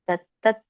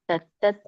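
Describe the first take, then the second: Both takes have the same delivery.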